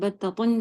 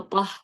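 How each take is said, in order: First: The word ends with a full '-tun' ending. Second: The word ends cut short with an 'h' sound. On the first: "अगर आप इसको आखिर में साइलेंट नहीं कर रही हैं" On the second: "अगर साइलेंट करें"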